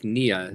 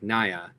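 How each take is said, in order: First: The first vowel sounds like 'ee'. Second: The first vowel sounds like 'eye'. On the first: The speaker calls it right. "it's pronounced like Nia" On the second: The speaker calls it wrong. "not like Naya"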